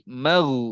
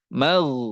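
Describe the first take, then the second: Both takes have the same delivery.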